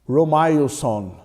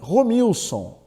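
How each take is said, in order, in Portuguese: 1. A vogal do meio é um ditongo 'ai'. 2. A vogal do meio é um 'i' simples.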